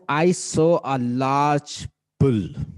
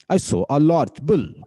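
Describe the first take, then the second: First: "I saw a large bull" said slowly, higher and louder with weight on saw; stress-timed demo sentence; slow stressed example. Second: "I saw a large bull" slowly, louder with a punch on I; stress-timed sentence, said with force; emphatic stress demo. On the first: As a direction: model each stressed beat of "I saw a large bull" for the class. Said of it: "मैं कहता हूं". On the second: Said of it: "it is stress timed language". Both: Shown as a demonstration.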